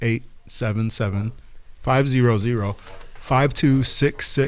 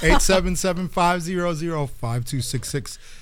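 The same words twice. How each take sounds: First: The number is said slowly. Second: The number is said fast.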